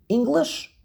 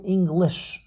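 First: "English" stressed on "Eng"; the usual ENG-lish stress; stress on first syllable. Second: "English" wrongly stressed on "lish"; odd eng-LISH stress as a demo; stress on last syllable. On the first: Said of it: "you emphasize the first syllable". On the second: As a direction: push the weight onto the end of "English". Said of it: "the first syllable or the last syllable". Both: Shown as a demonstration.

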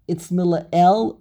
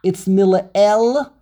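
First: Mila'el slower, stress on the middle syllable. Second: Mila'el slowed down, stress held on the middle syllable. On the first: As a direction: say Mila'el again, steadily. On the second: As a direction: lean slowly into Mila'el. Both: Shown as a demonstration. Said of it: "the Lamed gets the emphasis".

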